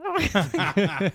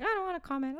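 First: Louder, fast, laughing through it; laughing whine. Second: High-pitched whine; whiny kid. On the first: Therapist repeating the kid's refusal while laughing. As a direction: blurt it out laughing. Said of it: "That's how I'm making it sound". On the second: Therapist voicing a kid refusing to comment, whining high. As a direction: drag it up into a whine. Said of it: "They all have really inappropriate pitches". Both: Retold or imitated.

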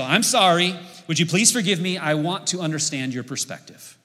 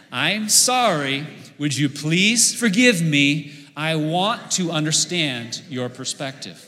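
First: The magic sentence, said sincerely and clearly; sincere apology demo. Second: Slow, deliberate, word by word with the crowd; slow group recitation. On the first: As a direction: model a heartfelt apology for the congregation. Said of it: "let me give you a whole sentence here". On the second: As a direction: lead the congregation through it slowly. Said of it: "Let's practice this together". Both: Shown as a demonstration.

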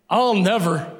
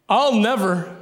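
No difference in how they are said.

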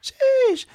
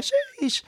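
First: "Sheesh" squeaked very high and loud; hammed-up hype exclamation; Gen Z sheesh. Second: "sheesh" cracking high, voice gone; failed attempt at a high sheesh; Gen Z sheesh. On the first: Shown as a demonstration. Retrying coworker's sheesh, cracking high and loud. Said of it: "if my voice wasn't gone, that would have executed much better". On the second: First try at coworker's sheesh, voice failing. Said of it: "if my voice wasn't gone".

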